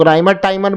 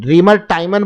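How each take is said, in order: First: "राइमर" said with an eye vowel, RYE-mer; variant pronunciation. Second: "रीमर" said with a long ee, REE-mer; variant pronunciation. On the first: Teacher showing students the other variant of the reaction's name, "राइमर" with eye. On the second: Teacher showing students one variant of the reaction's name, "रीमर" with ee. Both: Shown as a demonstration. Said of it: "सब pronunciation का difference है".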